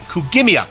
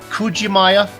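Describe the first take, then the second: First: The middle sounds like 'gimi', ending in 'miya'. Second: The middle sounds like 'jima', ending in 'maya'. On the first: The speaker calls it right. "Kugimiya. I can do that" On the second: The speaker calls it wrong. "he was confident it was Kujimaya"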